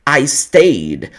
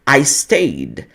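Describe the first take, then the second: No difference in how they are said.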